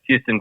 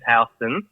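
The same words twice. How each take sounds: First: Pronounced like the Texas city name. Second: Pronounced differently from the Texas city name. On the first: People confuse the name with the city. The speaker calls it wrong. "everybody says Houston because of yeah Houston, Texas" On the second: This is how the family name is really said. The speaker calls it right. "It is Houston"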